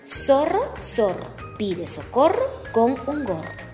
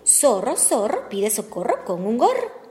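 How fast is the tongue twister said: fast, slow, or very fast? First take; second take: slow; fast. First: It is said at a slow pace. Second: It is said at a fast pace.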